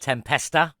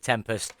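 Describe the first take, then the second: First: The name ends with an added a vowel. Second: The name ends on a t sound. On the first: The speaker calls it right. "It is the Tempesta with an A on the end" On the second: The speaker calls it wrong. "I said it wrong last time. I said the Tempest"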